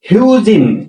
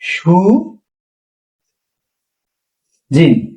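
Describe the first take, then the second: First: The word begins with an H sound. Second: The word begins with an S sound. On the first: "কি বলছে? হিউজিন" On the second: "কিন্তু এখানে উচ্চারণ হবে কি? সু জিন"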